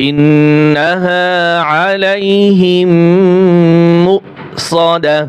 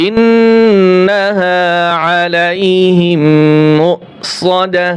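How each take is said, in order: No difference in how they are said.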